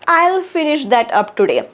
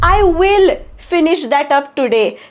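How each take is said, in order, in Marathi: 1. दोन्ही शब्द जोडून एक छोटं रूप होतं. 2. दोन्ही शब्द पूर्ण आणि वेगवेगळे म्हटले जातात.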